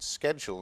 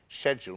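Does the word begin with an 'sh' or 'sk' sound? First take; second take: sk; sh. First: The word begins with an 'sk' sound. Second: The word begins with an 'sh' sound. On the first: "the American pronunciation" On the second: "the English pronunciation, which is schedule, more of a sh"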